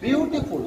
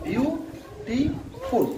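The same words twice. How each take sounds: First: Said in the usual way. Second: beautiful very slowly in three separate beats; slow teacher's syllable breakdown. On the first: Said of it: "তো কীভাবে দেখো". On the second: Shown as a demonstration. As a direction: stretch each syllable and pause between. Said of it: "এখানে তিনটি syllable আছে".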